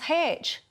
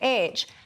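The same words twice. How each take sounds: First: The letter name starts with an h sound. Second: The letter name starts with a vowel sound. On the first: This comes from trying to sound more refined. "over-pronunciation of the letter H. So then it becomes H" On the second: This is the ordinary way to say the letter. "you would say H"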